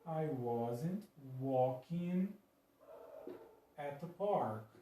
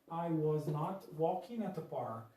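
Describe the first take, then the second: First: Was and not are joined as wasn't. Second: Was and not are said as two words. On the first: "eu vou juntar esse was com o not" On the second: "Essa é a forma negativa"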